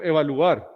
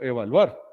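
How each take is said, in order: First: "evaluar" split as e-va-lu-AR, u apart from a; wrong hiatus version. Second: "evaluar" as e-va-LUAR, u gliding into a; correct diphthong version. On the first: Teacher showing what one does not say, split vowels. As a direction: separate the u from the a in "evaluar". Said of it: "Yo no digo evaluar". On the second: Teacher showing what one does say, joined vowels. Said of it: "yo digo evaluar". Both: Shown as a demonstration.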